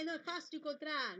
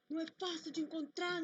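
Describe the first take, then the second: First: It is said in a cheerful, happy tone. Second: It is said in a desperate, anguished tone.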